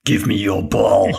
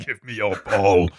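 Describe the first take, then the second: First: Slow menacing villain line; lightly voiced bully demanding the ball; slow theatrical villain menace. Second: Lightly growled bully demand; a hint of a cartoon villain; slow theatrical villain menace. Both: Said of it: "Jim was the voice, the voice of a villain".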